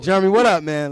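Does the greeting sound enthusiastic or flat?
enthusiastic. The greeting sounds lively and enthusiastic. The speaker calls it right. "there we go"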